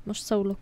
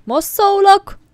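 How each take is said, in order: First: Said in the usual way. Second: "Most szólok!" yelled high and loud; shouted warning. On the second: Real, not acted. (hangos, magas kiáltás)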